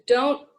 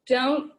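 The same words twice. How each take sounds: The two takes are said the same way.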